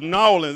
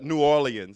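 First: The name is squeezed into two short syllables. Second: The name is said in full, carefully. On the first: It is how local Southerners say it. "we said Nawlins ... too many syllables in there" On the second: It is the proper, formal way of saying it. "That was just so proper"

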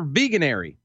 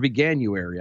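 First: There is no 'yoo' sound after 'vegan'. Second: A 'yoo' sound follows 'vegan'. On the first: The speaker calls it wrong. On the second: The speaker calls it right.

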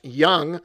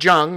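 First: The name is not said as it is spelled. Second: The name is said as it is spelled. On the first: The speaker calls it right. "It is pronounced Jung" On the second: The speaker calls it wrong. "not Jung, the way it is spelled"

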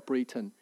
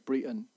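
First: The T sound is clearly pronounced. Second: The T sound is dropped, Brighton style.

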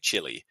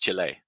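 First: The word is said in an English way. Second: The word is said in a non-English way. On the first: The speaker calls it wrong. "Sometimes I hear you lot in England say Chile" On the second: The speaker calls it right. "It's Chile"

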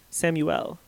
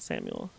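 First: The name is said in a cool, spicy way. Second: The name is said in a plain, ordinary way. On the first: The speaker calls it right. "everyone's name should be said cool. Like Samuel" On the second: The speaker calls it wrong. "Not Samuel"

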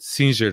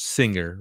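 First: The name is said with Portuguese pronunciation. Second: The name is said with English pronunciation. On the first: "But Singer was in Portuguese" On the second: "obviously in English is Singer"

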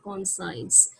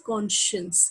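First: The word is said the way it is spelled. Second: The word is not said the way it is spelled. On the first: The speaker calls it wrong. "Not conscience, though the spelling is conscience" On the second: The speaker calls it right. "The pronunciation is conscience"

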